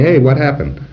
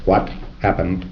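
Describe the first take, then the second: First: Hey, what happened, louder and higher with a bright Hey; lively casual. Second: Said in the usual way. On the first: Shown as a demonstration. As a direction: toss it off with friendly curiosity. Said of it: "You say". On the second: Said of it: "You don't have to say".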